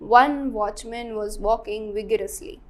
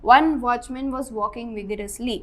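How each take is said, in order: First: Slower, each word of "One watchman was walking vigorously" opened on a clear v sound; stressed v sounds. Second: Said in the usual way. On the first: Shown as a demonstration. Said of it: "बोलने में सबके सब व से ही शुरू हो रहे हैं". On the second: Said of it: "O डब्ल्यू डब्ल्यू डब्ल्यू वी".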